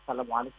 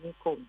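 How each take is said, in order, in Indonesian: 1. Salam itu diucapkan lengkap, setiap suku katanya. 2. Salam itu dipotong hingga tinggal suku kata terakhirnya. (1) "mengucapkan dengan kalimat yang benar" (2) "tidak sengaja mengucapkan ... itu kan tidak ada artinya dan maknanya"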